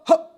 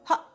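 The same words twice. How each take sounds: First: It is said heavily, with extra force. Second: It is said lightly, at normal speaking level. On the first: The speaker calls it wrong. "You don't need to start going hot" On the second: The speaker calls it right. "it just needs to be just right, just at speaking level"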